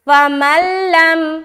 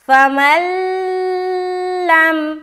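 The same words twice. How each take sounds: First: The sounds merge directly with no nasal hum. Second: The merged sound is held with a nasal hum. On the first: The speaker calls it right. "गुन्ने के बगैर करेंगे, यानी कि सिर्फ और सिर्फ मिलाएंगे" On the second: The speaker calls it wrong. "तो उसने गलत किया ना। क्या गलती की? कि गुन्ना कर रहा है"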